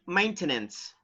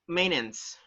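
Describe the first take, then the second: First: The T in the middle is clearly pronounced. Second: The T in the middle is silent. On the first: The speaker calls it wrong. "I have heard that some people say" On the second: The speaker calls it right. "technically, you gotta say"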